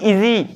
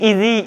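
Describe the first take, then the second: No difference in how they are said.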